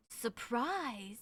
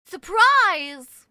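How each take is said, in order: First: Soft low puzzled "Surprise?"; quiet puzzled echo. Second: "Surprise?" shouted, much louder and higher; loud shocked "Surprise?". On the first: Streamer echoing a chat word, quiet puzzled. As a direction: murmur it to yourself. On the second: Streamer reacting to chat, loud mock shock. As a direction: blurt it out in mock outrage. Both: Shown as a demonstration. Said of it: "repeats it loud".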